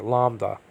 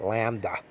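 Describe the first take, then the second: First: LAMBDA with open "ah"; own pronunciation. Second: LAMBDA with flat A as in lamb; others' pronunciation. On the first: Teacher showing class his preferred Greek letter name, own pronunciation. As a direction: say LAMBDA as "LAHM-duh". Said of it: "but I pronounce it lambda". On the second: Teacher showing how some people pronounce the Greek letter, others' pronunciation. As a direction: say LAMBDA as "LAM-duh". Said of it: "Some people pronounce it lambda". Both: Shown as a demonstration.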